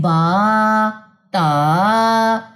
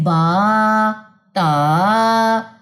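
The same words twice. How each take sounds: First: The vowels are stretched out long. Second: The vowels are stretched out long.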